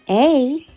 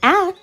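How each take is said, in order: First: The letter is said as a long 'ay'. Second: The letter is said as a short 'ah'. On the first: "that's called a long vowel sound" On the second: "it's called a short vowel sound"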